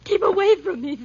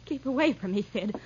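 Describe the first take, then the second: First: Loud, high cry to back off; cornered, fend him off at full voice; panicked warning. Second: Restrained, wary warning at usual volume; uneasy warning. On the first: Cornered at window, fears blow. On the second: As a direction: warn him off without raising the voice. First warning to advancing man. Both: Acted.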